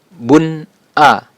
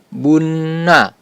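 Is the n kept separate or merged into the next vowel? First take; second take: separate; merged. First: The n is said clearly before a separate vowel. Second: The n is doubled and runs into the vowel. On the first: The speaker calls it right. "sehingga dibaca bun a" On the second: The speaker calls it wrong. "tidak dibaca bunna"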